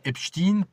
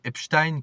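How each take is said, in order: First: The last syllable rhymes with 'een'. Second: The last syllable rhymes with 'ine'. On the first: The speaker calls it wrong. "pour qu'on pense que c'est Poutine" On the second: The speaker calls it right. "ça devrait plutôt se prononcer Epstein comme Einstein"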